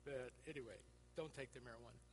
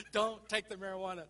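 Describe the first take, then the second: First: Don't take the marijuana, dropped low and soft; soft deadpan don't take the marijuana; quiet aside. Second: Don't take the marijuana, punched loud with a laugh; loud laughing warning. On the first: Shown as a demonstration. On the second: Retold or imitated.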